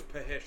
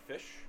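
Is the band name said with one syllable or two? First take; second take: two; one. First: The name is said as two syllables. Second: The name is said as one syllable. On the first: The speaker calls it wrong. "I thought it was Pahish until like a week ago" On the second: The speaker calls it right. "there's a band I like called Fish"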